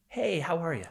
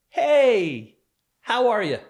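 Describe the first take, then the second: First: Higher, offhand mock greeting; carefree brush-off. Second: Loud, high, breezy "hey, how are you?"; carefree dismissive greeting. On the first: Victim quoting his abuser's casual dismissal, carefree. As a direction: imitate a casual, dismissive hello at ordinary volume. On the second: Retold or imitated. Abuser casually greeting his victim in the doorway, carefree. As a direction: toss out a big casual hello, brushing them off. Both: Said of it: "you just carefree dismiss me".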